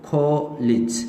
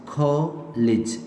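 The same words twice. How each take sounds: No difference in how they are said.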